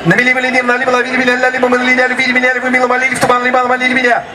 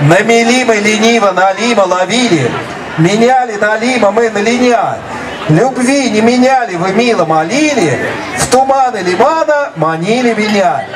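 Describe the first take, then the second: First: Rapid-fire tongue twister; said really fast. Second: Slow careful tongue twister; said slowly. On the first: Teacher showing students the tongue twister at full speed. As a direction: rattle it off as fast as you can. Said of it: "I'm going to say this tongue twister really fast". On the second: Teacher demonstrating a tongue twister slowly first. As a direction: take each word slowly and clearly. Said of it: "I am going to say it slowly first". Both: Shown as a demonstration.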